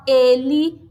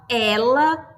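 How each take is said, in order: First: "ele" with closed first vowel, as ay without glide. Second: "ela" with open first vowel, as eh. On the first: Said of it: "eu tenho um som fechado". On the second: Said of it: "eu tenho um som aberto". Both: Shown as a demonstration.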